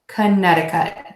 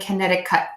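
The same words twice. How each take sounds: First: The final T is held without a release. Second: The final T is released with a burst. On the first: The speaker calls it right. "I'm actually just holding that T and I'm not exploding it" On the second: The speaker calls it wrong. "I'm not saying Connecticut"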